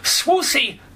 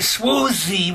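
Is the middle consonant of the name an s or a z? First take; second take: s; z. First: The middle consonant is a hissing s sound. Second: The middle consonant is a buzzing z sound. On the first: The speaker calls it right. "I am being very deliberate about that pronunciation" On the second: The speaker calls it wrong. "with a z, that's not correct"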